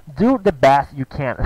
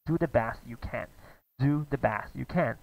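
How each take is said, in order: First: Slow, careful model. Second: Slow model line. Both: Shown as a demonstration.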